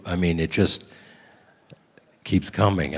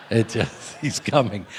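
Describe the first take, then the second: First: Said in the usual way. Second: Chuckling through the repeated line; laughing. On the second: Real, not acted.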